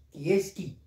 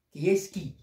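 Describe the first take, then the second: No difference in how they are said.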